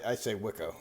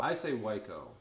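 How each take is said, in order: First: Wicco with short i, WIK-o; saying Wicco. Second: Wico with long i, WY-ko; saying Wico. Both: Shown as a demonstration.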